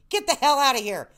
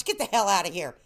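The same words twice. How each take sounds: First: Playful louder shout. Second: Said in the usual way. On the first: Shown as a demonstration. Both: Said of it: "repeated louder".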